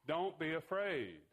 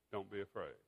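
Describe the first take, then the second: First: Slow, raised, drawn-out urging; mildly raised, deliberate proclamation; firm reassurance. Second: Soft, low and tender; lowered, softened reassurance; gentle reassurance. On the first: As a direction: stretch it out as an encouraging command. Jesus calls out to screaming disciples. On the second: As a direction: let it settle quietly as comfort. Jesus's words repeated for reflection. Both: Retold or imitated.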